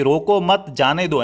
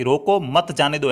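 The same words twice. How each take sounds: First: रोको मत joined, slow, break before जाने दो; slowly attach मत to रोको, then जाने दो; pause after मत. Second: रोको, slow break, then मत जाने दो together; pause after रोको. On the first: Teacher giving what the listener heard, pause after मत. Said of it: "सामने वाले ने क्या सुन लिया". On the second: Teacher giving the intended order to stop him, pause after रोको. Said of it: "यानी कि रोकना होगा इसको". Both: Shown as a demonstration.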